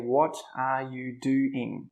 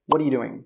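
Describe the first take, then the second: First: Each word is pronounced fully and separately. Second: The words run together fast with reduced sounds. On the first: This is how a learner from books says it. "A non-native speaker would say" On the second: This is how a native speaker says it casually. "But a native speaker will say"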